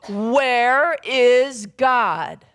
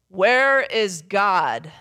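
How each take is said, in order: First: It is said at the loudest, most forceful. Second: It is said in a big booming voice.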